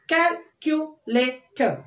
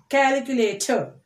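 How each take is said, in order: First: CALCULATOR slowly as cal, cu, la, tor; four separate beats on CALCULATOR; split into syllables. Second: Said in the usual way. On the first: Shown as a demonstration. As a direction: pause between the syllables of CALCULATOR. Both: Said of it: "splitting the word like this".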